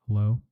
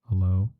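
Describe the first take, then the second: Both takes have the same delivery.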